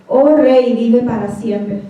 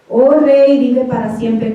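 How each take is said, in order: First: Respectful reply. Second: A touch of reverent respect, first words lifted; Daniel answering the king, respectful and unbitter; respectful reply. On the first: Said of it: "no le contestó Daniel con un corazón amargado". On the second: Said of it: "con ese mismo respeto". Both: Retold or imitated.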